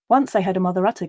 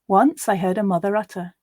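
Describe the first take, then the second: First: It is read as fast as possible. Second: It is read at a natural speaking speed. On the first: "This time we're going to go as fast as we can" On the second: "we'll now read it at a more natural pace"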